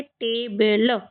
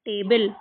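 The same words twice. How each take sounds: First: table stretched into two parts, टे and बल; drawn-out phonics demo of table; sounding out. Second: Said in the usual way. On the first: Shown as a demonstration. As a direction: say table slowly, syllable by syllable. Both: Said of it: "क्या पढ़ेंगे?".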